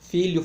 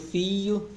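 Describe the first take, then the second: First: The word is said with a clear 'lh' sound. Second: The 'lh' sound becomes a plain 'i' sound.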